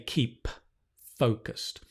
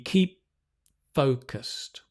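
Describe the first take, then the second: First: The p in keep is fully released. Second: The p in keep is held, not released. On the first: The speaker calls it wrong. "we don't say keep focused because the p and the th are so close" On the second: The speaker calls it right. "So the p doesn't explode"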